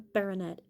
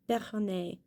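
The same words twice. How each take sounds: First: The word is said in an English style. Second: The word is said in a French style. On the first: The speaker calls it wrong. "It's not a baronet" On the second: The speaker calls it right. "it's a French word"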